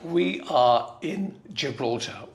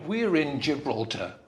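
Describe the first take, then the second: First: The opening is said as two full words. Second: The opening is said as one contracted word.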